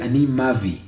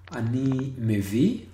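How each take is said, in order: First: The vowel after the m is an a. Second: The vowel after the m is an e. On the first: "the other instance with a" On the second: "once with e"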